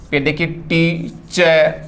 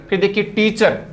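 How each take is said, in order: First: Drawn out slowly. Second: Said in the usual way. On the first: Shown as a demonstration.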